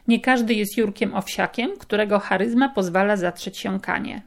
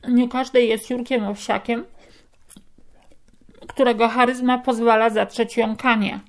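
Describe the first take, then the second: First: The sentence is spoken with clear, normal articulation. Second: The sentence is spoken with a cork, sounding muffled. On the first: "Przeczytam Wam jeszcze raz to zdanie" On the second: "biorę korek"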